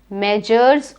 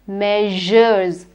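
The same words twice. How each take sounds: First: The middle consonant is not a 'zh' sound. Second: The middle consonant is a 'zh' sound. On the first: The speaker calls it wrong. "it is not measures" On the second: The speaker calls it right. "It is measures"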